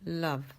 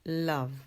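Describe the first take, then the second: First: The vowel is a relaxed, neutral A sound. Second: The vowel is a relaxed, neutral A sound.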